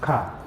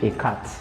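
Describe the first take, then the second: First: The final t is silent. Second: The final t is clearly sounded. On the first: The speaker calls it right. "why I'm not pronouncing the last consonant" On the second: The speaker calls it wrong. "Can you guess why I'm not saying a cat?"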